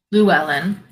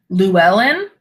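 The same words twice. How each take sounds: First: Llewellyn said once, firmly, loo-EL-en, now known; confirming Llewellyn as final; settled answer. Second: Llewellyn asked with a checking rise, loo-EL-en; testing the name Llewellyn as a question; unsure question. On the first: Accepting chat's correction of the name, assured. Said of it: "I feel better knowing that it's Welsh now". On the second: Checking the name with chat viewers, tentatively. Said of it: "It's Llewellyn". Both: Real, not acted.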